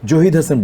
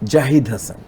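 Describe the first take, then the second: First: The first vowel is a rounded 'o' sound. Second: The first vowel is an open 'a' sound. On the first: The speaker calls it wrong. "জহিদ Hasan বলি না" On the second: The speaker calls it right. "যেমন জাহিদ হাসান"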